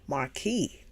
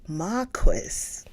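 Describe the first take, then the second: First: It is said with an American pronunciation. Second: It is said with a British pronunciation. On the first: "Marquis, American pronunciation" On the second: "But if we do British"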